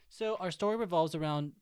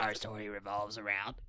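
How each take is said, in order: First: It is said in her normal voice. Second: It is said in a put-on character voice.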